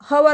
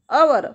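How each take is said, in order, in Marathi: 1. या शब्दाची सुरुवात स्पष्ट h आवाजाने होते. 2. या शब्दाची सुरुवात स्वराने होते, त्यात h आवाज नाही. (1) "काही विद्यार्थी हवर म्हणतात, याला हवर नाही म्हणायचं" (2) "यच इज सायलेंट हिअर"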